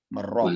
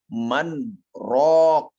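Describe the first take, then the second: First: The n merges into the r sound. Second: The n is kept separate from the r. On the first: The word would mean fighting. "Kalau secara kaidah... akan dibaca menjadi wakila marraq" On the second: The phrase keeps its own separate meaning. "Sedangkan di sini man raq"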